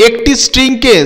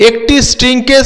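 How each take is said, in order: The two takes are said the same way.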